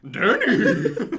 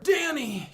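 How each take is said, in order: First: It is said like a horse would say it. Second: It is said in a normal reading voice.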